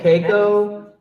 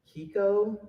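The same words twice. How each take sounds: First: Keiko said as KAY-koh; corrected name. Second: Kiko said as KEE-ko; mispronounced name. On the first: Announcer correcting the winner's name, KAY-koh. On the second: Announcer unsure of the winner's name, guessing Kiko. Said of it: "I might mispronounce the last name". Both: Real, not acted.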